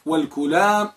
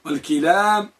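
First: والكلام said walkulam, u under the k; والكلام with a short u after k, wal-kulam; kulam with damma. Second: والكلام said walkilam, i under the k; والكلام with a short i after k, wal-kilam; kilam with kasra. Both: Shown as a demonstration. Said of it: "جمع الكلام والكلام والكلام".

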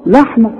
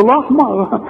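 First: First "لحمة" with a thin, clear L; everyday light Lam. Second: "لحمة" with a thick, dark L; mock-question "لحمة" with a heavy L; absurd heavy Lam. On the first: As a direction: keep the L of "لحمة" light and forward. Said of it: "احنا بقى بنقول ايه؟". ("لحمة" بلام مرققة) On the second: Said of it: "ازاي؟". ("لحمة" بلام مفخمة باستنكار) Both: Shown as a demonstration.

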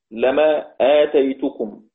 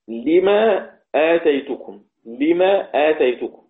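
First: Slow لما with fatha and long a; lemaa, open lam; Hafs reading lamma. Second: Slow لما with kasra, limaa; Hamza reading. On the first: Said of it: "كلمة لما". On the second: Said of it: "يعقرأ حمزة". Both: Shown as a demonstration.

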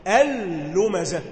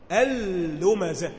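First: Slow, louder اللمزه with a hard whip-crack لام; lam cracked like a whip, louder. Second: Slow اللمزه with the لام snapped off the tongue; lam cracked like a whip. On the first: Teacher repeats اللمزه louder so students hear the whip. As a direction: hit the لام of اللمزه harder, still slow. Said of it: "شايف عامل ازاي؟". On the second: Teacher showing students how the لام in اللمزه whips. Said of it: "لسانك بيبقى عامل فيها زي الكرباج". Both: Shown as a demonstration.

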